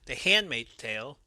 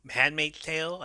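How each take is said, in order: First: "The Handmaid's Tale" said cleanly with a clear H, a bit louder; careful correction. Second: "Handmaid's Tale" stumbled, the H half-swallowed so it comes out like "Manmaid's"; fumbled title. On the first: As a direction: fix the title, crisply and deliberately. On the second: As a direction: trip over "Handmaid's" and blur the opening H. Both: Real, not acted. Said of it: "again, I fucked that one up".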